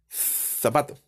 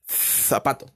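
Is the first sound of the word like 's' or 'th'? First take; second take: th; th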